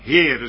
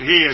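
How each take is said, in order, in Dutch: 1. Het woord wordt uitgesproken met een tweede, extra lettergreep. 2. Het woord wordt uitgesproken als één korte lettergreep. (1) "maar dan ga ik van Heere spreken" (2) "Dan ga ik niet over Heer spreken"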